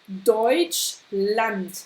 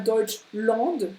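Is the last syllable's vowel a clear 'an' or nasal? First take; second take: clear an; nasal. First: The last syllable has a clear a plus n. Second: The last syllable has a French nasal vowel. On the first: The speaker calls it right. "on a bien le oi, Deutschland, ein" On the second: The speaker calls it wrong. "et pas Deutschland, qui fait en, ça c'est franc"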